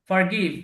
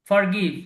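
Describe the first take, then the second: The two takes are said the same way.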